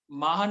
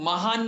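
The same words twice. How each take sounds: First: MAA-han, "महान" with long first vowel and short second; correct term pronunciation. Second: Ma-HAAN, "महान" with short first vowel and long second; mistaken pronunciation. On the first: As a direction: say "महान" as maa-hun, stretching the first syllable. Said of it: "मा ह न". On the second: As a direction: say "महान" as muh-haan, stretching the last syllable. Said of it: "महान नहीं". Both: Shown as a demonstration.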